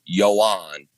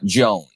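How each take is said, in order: First: The name begins with a Y sound. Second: The name begins with a J sound. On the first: The speaker calls it right. "everyone needs to know it is Yoan" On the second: The speaker calls it wrong. "It is not Joan. He does not like Joan, the American version"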